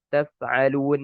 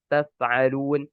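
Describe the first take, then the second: No difference in how they are said.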